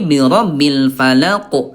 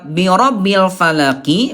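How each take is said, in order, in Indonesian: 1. Kata terakhir berakhir dengan konsonan memantul. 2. Kata terakhir berakhir dengan bunyi vokal.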